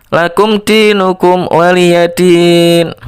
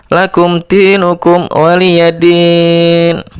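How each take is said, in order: The two takes are said the same way.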